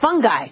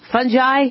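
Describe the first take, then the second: First: The g is pronounced hard. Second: The g is pronounced soft. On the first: The speaker calls it right. "It's hard G on the human body" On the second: The speaker calls it wrong. "our teachers called it fungi"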